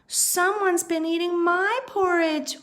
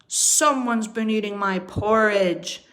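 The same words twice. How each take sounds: First: It is wailed in Mama Bear's voice. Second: It is roared in Papa Bear's voice.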